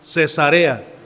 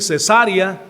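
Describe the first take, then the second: First: The stress falls on the third syllable. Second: The stress falls on the second syllable. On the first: It names the city. The speaker calls it right. "así es como se pronuncia" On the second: It names something very different. The speaker calls it wrong. "va a ser otra cosa muy diferente"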